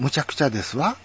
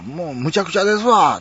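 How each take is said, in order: First: Brisk standard Tokyo intonation, ladylike light wa; standard-Japanese feminine speech. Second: Kansai dialect. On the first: Converting Kansai into women's standard speech, ladylike standard accent. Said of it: "これを標準語の、". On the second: Giving the Kansai version before converting it, emphatic Kansai accent. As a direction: lean hard into Kansai intonation. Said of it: "これ関西弁ですけど". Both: Shown as a demonstration.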